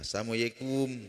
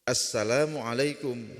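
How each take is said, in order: First: The greeting is said clipped and slurred. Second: The greeting is said fully and carefully. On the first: The speaker calls it wrong. "ini tidak benar" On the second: The speaker calls it right. "Mesti diluruskan"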